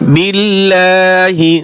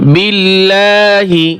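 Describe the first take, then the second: First: The word ends with a short final vowel. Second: The same.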